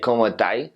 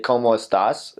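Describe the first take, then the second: First: The last word ends with an i sound. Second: The last word ends with an s sound. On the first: "In Chile" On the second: "in normal Spanish"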